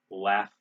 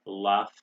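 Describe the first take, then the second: First: American "laugh" with front a; "laugh" as laff; American pronunciation. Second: British "laugh" with ah vowel; "laugh" with a back open vowel; British pronunciation. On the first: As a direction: say "laugh" with the vowel of cat. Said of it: "We say bath". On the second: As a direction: say "laugh" as lahf. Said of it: "they say bath in Britain". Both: Shown as a demonstration.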